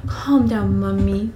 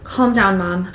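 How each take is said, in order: First: Exaggerated cooing reassurance; put-on babyish soothing; mock soothing. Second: Mildly soothing; gentle, understated reassurance. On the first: Reader hamming up Bella soothing mother, cooing. Joking retake of most soothing voice. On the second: A narrator's reading. Bella to her panicking mother, soothing. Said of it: "in my most soothing voice".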